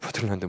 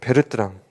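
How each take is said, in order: First: The name is said as 'beo-teul-lan-deu'. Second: The name is said as 'be-reu-teu-rang'. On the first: The speaker calls it wrong. "어떤 교수님들께서는 버틀란드 모형이라고 해요. ... 조금 아닌 것 같아" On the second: The speaker calls it right. "이를 보고 우리는 베르트랑이라고 합니다"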